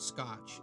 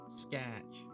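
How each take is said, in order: First: The vowel is a short, plain o sound. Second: The vowel is drawn out toward an a sound. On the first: "It's not scotch" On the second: "say it with the true Michigander accent"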